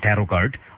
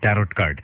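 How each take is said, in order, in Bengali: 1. tarot এর শেষের t নীরব। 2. tarot এর শেষের t উচ্চারিত হয়।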